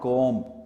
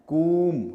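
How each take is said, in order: First: The vowel is an 'oh' sound. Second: The vowel is a long 'oo' sound. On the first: The speaker calls it wrong. "Not कोम" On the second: The speaker calls it right. "कूम, not कोम"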